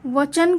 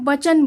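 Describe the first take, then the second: First: The word starts with a v sound. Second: The word starts with a b sound. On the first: "वचन को" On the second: "बचन बोलते हैं"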